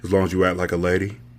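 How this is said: It is read in a deep, low voice.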